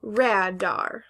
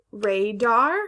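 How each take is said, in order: First: "radar" very slowly as RAD-ar; short A. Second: "Radar" loud as RAY-dar, rising; long A. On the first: Teacher offering the wrong option, "radar" as rad-ar. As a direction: say "radar" with the a of cat, drawn out. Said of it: "The other dog says radar". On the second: Teacher offering students a choice, "Radar" as ray-dar. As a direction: say "Radar" with the a of day. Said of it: "One dog says radar". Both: Shown as a demonstration.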